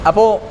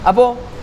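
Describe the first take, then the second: The two takes are said the same way.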